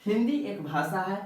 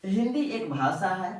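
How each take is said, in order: Both takes have the same delivery.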